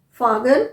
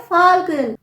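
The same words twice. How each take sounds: First: "फागन" with no l before the g; wrong take "फागन", skipping the l; L left silent. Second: "फाल्गुन" with the l sounded before g; slow model "फाल्गुन", clear l in the middle; L pronounced. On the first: Teacher showing the mistake in falcon, L left silent. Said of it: "यहाँ पर आप एल pronounce करेंगे". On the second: Teacher correcting falcon, L pronounced. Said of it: "आप एल pronounce करेंगे". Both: Shown as a demonstration.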